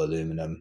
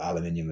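First: It has four syllables, ending in -num. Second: It has five syllables, ending in -nium. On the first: This is how Americans say it. "as the Americans would say" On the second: This is how it is said back home. "as we say back home"

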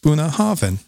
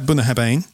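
First: The second word has a v sound. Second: The second word has a b sound. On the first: The speaker calls it right. "That's just how it's pronounced" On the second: The speaker calls it wrong. "I've heard it called Boona Harbane"

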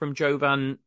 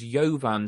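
First: The name begins with a hard J sound. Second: The name begins with a soft J sound. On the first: The speaker calls it wrong. "I think by using a hard J, I think I'm actually getting it wrong" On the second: The speaker calls it right. "the pitch announcer pronounced it as a very soft J"

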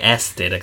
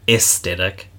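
First: The first vowel sounds like the letter A. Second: The first vowel sounds like the letter E. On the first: This is how the speaker's own group says it. "Whereas we say aesthetic, like A" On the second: This is how Americans say it. "because they say aesthetic, like E"

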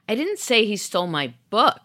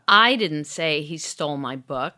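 First: The stress is on "book". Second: The stress is on "I".

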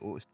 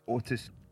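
First: The T in the middle is dropped. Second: The T in the middle is clearly pronounced. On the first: The speaker is talking casually in local slang. The speaker calls it wrong. "if I'm speaking lazy, I'll say Otis" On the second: The speaker is making an effort to speak carefully. The speaker calls it right. "So I try and say Otis"

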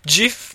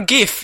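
First: The word starts with a J sound. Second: The word starts with a hard G sound. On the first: The speaker calls it right. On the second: The speaker calls it wrong.

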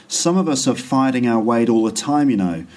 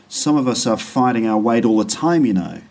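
No difference in how they are said.

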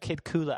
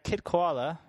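First: The second word sounds like 'kula'. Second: The second word sounds like 'koala'. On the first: The speaker calls it right. "actually, K-U-L-A" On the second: The speaker calls it wrong. "I've mispronounced him"

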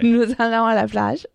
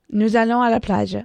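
First: It ends rising, like a question. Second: It ends falling, like a statement.

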